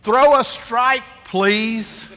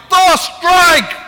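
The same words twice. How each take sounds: First: Polite coach. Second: Much higher, much louder, slow barked order; harsh yell. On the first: Coach Francis asking his pitcher politely, encouraging. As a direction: coax the pitcher gently. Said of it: "He says". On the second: Pastor shouting at the pitcher, impatient yell. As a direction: bellow it like a hot-tempered coach. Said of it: "I'm like". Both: Retold or imitated.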